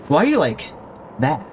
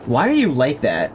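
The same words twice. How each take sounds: First: The question sounds intrigued and fascinated. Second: The question sounds disapproving and put off. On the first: The person asked has an intriguing mystery about them. The speaker calls it right. "You gotta change the inflection to make yourself seem strange and exciting" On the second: The person asked seems like a freak. The speaker calls it wrong. "So instead of"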